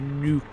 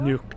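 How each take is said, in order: First: The vowel sounds like the one in duke. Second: The vowel sounds like the one in book. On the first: The speaker calls it right. "I need to stop and just say Nuke" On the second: The speaker calls it wrong. "my pronunciation of Nook"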